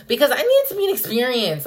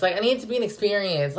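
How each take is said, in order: First: Higher, louder and quick; dramatic insistence; emphatic and fast. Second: Said in the usual way. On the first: Real, not acted. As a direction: push it out insistently.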